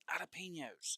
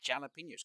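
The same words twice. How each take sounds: First: The J at the start is silent. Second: The J at the start is sounded. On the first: The speaker calls it wrong. "it's not jalapenos" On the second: The speaker calls it right. "because there is a J in it"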